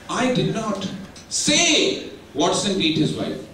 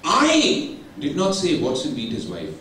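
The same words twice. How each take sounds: First: The stress falls on the word say. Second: The stress falls on the word I. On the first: It was implied some other way, not said. "I might have done some actions, gesticulations" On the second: Someone else said it. "somebody else would have told"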